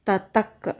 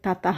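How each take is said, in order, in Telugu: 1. ఈ పదం k లాంటి ధ్వనితో ముగుస్తుంది. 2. ఈ పదం ఊపిరితో కూడిన h ధ్వనితో ముగుస్తుంది. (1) "కా బ్రాకెట్లో ఉంది కదా, దాన్ని ప్రొనౌన్స్ చేయాలి" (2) "తతః అనకూడదు"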